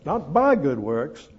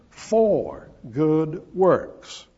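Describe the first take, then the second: First: Rising lift on "by" in "Not by good works"; "by" stressed with a rise, then settle. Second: Very slow "for good works", "for" leaned on and falling; a slow, heavy "for" answering "by"; stress on for. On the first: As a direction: lean on "by" to set it against "for". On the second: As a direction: drag "for" out slowly, the key contrast word. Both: Shown as a demonstration.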